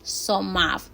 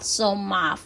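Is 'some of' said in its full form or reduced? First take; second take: reduced; reduced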